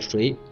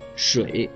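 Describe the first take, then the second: First: The syllable has a rising tone. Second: The syllable has a low dipping tone. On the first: It means who. "水是谁知道的水" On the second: It means water. "水是喝的water"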